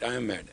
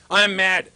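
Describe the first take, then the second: First: Softer, lower, plainly owning it; a calm confession of anger; quiet honest admission. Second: Angry declaration. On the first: Shown as a demonstration. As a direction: admit it simply, no heat. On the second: Retold or imitated. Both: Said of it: "But you say it right".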